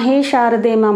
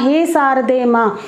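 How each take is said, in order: First: शारदे begins with a 'sh' sound. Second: शारदे begins with an 's' sound. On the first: The speaker calls it right. "Prayer होती है हे शारदे माँ" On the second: The speaker calls it wrong. "बच्चे बोलेंगे हे शारदे माँ ... तो ये उच्चारण सल गलत हो जाएगा"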